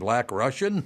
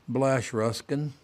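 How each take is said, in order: First: The words are pronounced clearly and distinctly. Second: The words are slurred and run together. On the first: The person saying it is sober. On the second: The person saying it is very drunk. "she goes"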